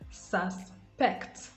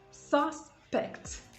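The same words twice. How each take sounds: First: The stress is on the second syllable. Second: The stress is on the first syllable. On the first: It is used as a verb. "That is the verb" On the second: It is used as a noun. "The noun"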